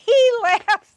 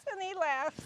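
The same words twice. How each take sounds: First: Laughing out loud mid-phrase. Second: Said in the usual way. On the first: Real, not acted. Sister remembering her brother's jokes, laughing.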